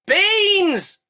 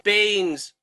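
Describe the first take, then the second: First: High, loud repeat of Beans!; Beans! yelled up the pipe; louder shout. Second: Said in the usual way. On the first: Acted. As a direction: shout Beans! again so she hears.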